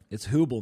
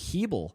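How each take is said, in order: First: The first vowel is a plain oo sound. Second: The first vowel sounds like an ee sound. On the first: "Is it Hubel?" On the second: "The U sound is made by saying the E sound"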